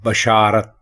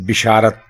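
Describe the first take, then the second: First: The first syllable has the vowel a. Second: The first syllable has the vowel i. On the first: The speaker calls it right. "आप बे के ऊपर जबर लगाएंगे" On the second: The speaker calls it wrong. "वो जेर लगा देते हैं बे के नीचे"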